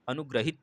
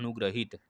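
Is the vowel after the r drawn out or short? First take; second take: short; drawn out. First: The vowel after the r is short and quick. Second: The vowel after the r is drawn out long. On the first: The speaker calls it wrong. "अनुग्रहित नहीं बोला जाता है" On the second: The speaker calls it right. "थोड़ा खींच के बोला जा रहा है"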